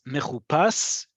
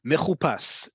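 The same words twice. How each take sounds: First: "mechupas" said slowly, syllable by syllable; slow careful model. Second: Said in the usual way. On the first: Shown as a demonstration. Teacher modelling "mechupas" slowly for beginners. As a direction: sound out "mechupas" slowly for the class. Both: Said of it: "with vowels".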